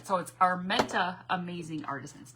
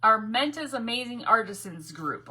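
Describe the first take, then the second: First: Armenta said with no S on the end; without the S. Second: Armenta's with a final S sound. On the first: Correcting the group name for viewers, Armenta said without an S. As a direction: say Armenta with no final S sound. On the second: Reading the group name out with an S on Armenta's. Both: Shown as a demonstration. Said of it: "No S".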